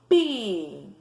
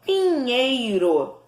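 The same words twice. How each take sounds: First: "Pinheiro" in three slow, separated syllables. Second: Said in the usual way. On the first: Shown as a demonstration. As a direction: say "Pinheiro" as PI, NHEI, RO with pauses. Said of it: "as sílabas pausadamente". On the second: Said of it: "Eu separei".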